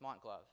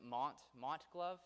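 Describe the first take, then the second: First: "Mont Glove" with a falling, settled tune; settled statement. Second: "Mont Glove" with a high questioning rise; tentative question. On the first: Lecturer settling on how to say the company's name, settled statement. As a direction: state "Mont Glove" plainly, dropping at the end. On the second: Lecturer checking a company name's pronunciation with the audience, tentative question. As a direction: try "Mont Glove" as a question, pitch lifting sharply. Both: Real, not acted. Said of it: "I'm gonna try it".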